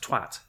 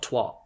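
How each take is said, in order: First: The vowel sounds like an 'a'. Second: The vowel sounds like an 'o'. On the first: The speaker calls it right. "it's not an O, it's an A" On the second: The speaker calls it wrong. "not twat. Twat is weird"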